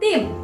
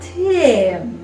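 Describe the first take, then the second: First: It is pronounced with Indonesian sounds. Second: It is pronounced with English sounds. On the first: The speaker calls it right. "disesuaikan dengan lidah atau pengucapan ataupun lafal dari bahasa Indonesia" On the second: The speaker calls it wrong. "bukan tim ya"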